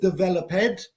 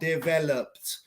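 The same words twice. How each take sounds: First: The ending is said as an extra syllable. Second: The ending adds no extra syllable. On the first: The speaker calls it wrong. "No es developed. No existe developed" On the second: The speaker calls it right. "Quitamos el E con la pronunciación"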